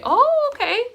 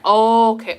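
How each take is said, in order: First: Loud, squeaky-high "oh, okay"; high-pitched acknowledgement. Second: Loud, level-pitched "oh, okay"; loud acknowledgement. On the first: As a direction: shoot the pitch way up. Repeat, much higher. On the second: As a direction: say it loudly without lifting the pitch. Two contrasting acknowledgements. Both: Real, not acted.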